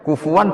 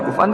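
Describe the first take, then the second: First: The middle consonant is a w sound. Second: The middle consonant is a glottal stop. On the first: "Imam Asim bacanya kufuan" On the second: "ulama lain baca kuf'an"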